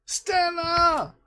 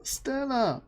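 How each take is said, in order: First: Much higher, drawn-out winner's name; excited announcement. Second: Said in the usual way. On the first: Real, not acted. Host reveals the winner to the stream, drawn-out excited. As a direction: call the name like a prize reveal.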